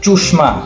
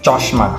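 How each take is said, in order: First: It is said in Natore regional pronunciation. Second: It is said in standard Bengali pronunciation. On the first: "নাটোরের আঞ্চলিক ভাষায়" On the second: "শুদ্ধ ভাষায়"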